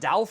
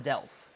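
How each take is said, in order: First: The vowel is an open A sound. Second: The vowel is an E sound. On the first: The speaker calls it wrong. "Where'd the A come from?" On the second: The speaker calls it right. "It's an E"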